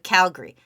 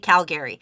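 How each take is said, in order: First: The second A is dropped, making two syllables. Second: The second A is clearly pronounced, three syllables. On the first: This is how locals say the name. The speaker calls it right. "They don't say the other A" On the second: This is an over-careful, non-local way of saying it. The speaker calls it wrong. "I still very much pronounce that second A"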